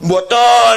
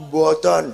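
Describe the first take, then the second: First: High, loud frightened yelp of a denial; panicked denial. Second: Said in the usual way. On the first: Retold or imitated. Son yelping his denial at the angry father, high and loud.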